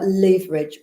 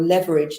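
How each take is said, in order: First: It is said with a British pronunciation. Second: It is said with an American pronunciation. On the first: The speaker comes from the UK. "depending on whether you come from the U K or the States" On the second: The speaker comes from the States. "depending on whether you come from the U K or the States"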